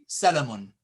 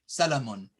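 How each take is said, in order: No difference in how they are said.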